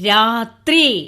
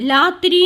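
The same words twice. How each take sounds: First: The 'thri' sound is pronounced clearly. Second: The 'thri' sound is not pronounced clearly. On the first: The speaker calls it right. "രാത്രി എന്ന് പറയണം" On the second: The speaker calls it wrong. "രാത്രി എന്ന് പറയരുത്"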